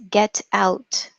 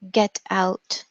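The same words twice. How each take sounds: The two takes are said the same way.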